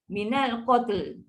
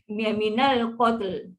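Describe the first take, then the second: First: The word ends with a clear final L sound. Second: The same.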